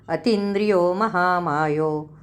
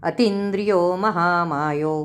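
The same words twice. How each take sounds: The two takes are said the same way.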